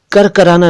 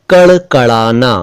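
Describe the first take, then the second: First: करकराना with plain r, no flap; wrong r for ड़. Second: कड़कड़ाना with two retroflex flaps; correct flap ड़. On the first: Teacher rejects this version, करकराना with plain r. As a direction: say करकराना with two र sounds. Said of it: "नहीं". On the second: Teacher models a word for learners, कड़कड़ाना with flap ड़. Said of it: "करकराना नहीं". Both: Shown as a demonstration.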